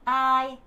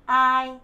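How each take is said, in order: Both takes have the same delivery.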